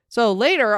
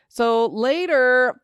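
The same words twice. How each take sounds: First: Said in the usual way. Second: "So later" drawn out slowly, higher and lingering; dramatic slow build-up. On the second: Shown as a demonstration. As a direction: stretch "So later" slow and high for suspense. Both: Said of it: "okay, this is what we really care about".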